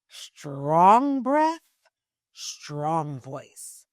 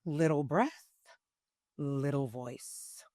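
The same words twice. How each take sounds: First: Strong, full-breathed delivery, swelling on the first phrase; powerful breath-backed voice. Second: Small, soft voice on little breath. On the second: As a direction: say it softly and slowly, with barely any air behind it. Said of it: "let's just start with this. Little breath, little voice". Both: Shown as a demonstration.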